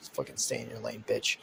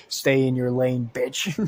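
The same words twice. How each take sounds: First: Much lower, softer menacing snarl; low glaring threat. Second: Repeated louder. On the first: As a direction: growl it low like a warning. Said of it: "kinda glares at her". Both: Acted.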